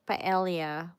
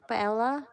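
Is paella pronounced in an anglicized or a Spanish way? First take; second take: anglicized; Spanish. First: The word is said with an anglicized pronunciation. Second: The word is said with a Spanish pronunciation. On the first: The speaker calls it wrong. "we pronounce paella" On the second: The speaker calls it right. "in Spain they pronounce it paella"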